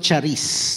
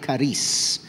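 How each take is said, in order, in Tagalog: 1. Binabasa ang salita sa istilong Filipino, ayon sa baybay nito. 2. Binibigkas ang salita sa orihinal na paraang Griyego. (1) "pag binasa ng mga Filipino" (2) "ang pagkakabanggit po talaga ay"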